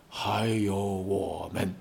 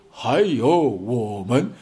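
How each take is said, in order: First: Slow, much softer and lower; 还有我们 said slowly and softly, almost a hush; 还有我们 eased out gently and quietly to end the speech; tender close. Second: Slow and louder, each word pressed out; 还有我们 stretched slow and punched loud like a rally cry; 还有我们 said slow and louder to stir the crowd; emphatic rally line. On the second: Rousing rally close. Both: Acted.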